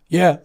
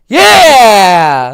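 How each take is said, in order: First: It is said flat and unenthusiastic. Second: It is said loud and enthusiastic.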